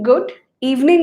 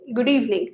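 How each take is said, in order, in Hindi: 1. दोनों शब्द अलग-अलग बोले जाते हैं। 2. दोनों शब्द एक शब्द जैसे सुनाई देते हैं। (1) "गुड इवनिंग नहीं" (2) "साउंड्स लाइक वन वर्ड"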